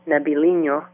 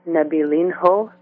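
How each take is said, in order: First: The name is said with a Portuguese accent. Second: The name is said without a Portuguese accent.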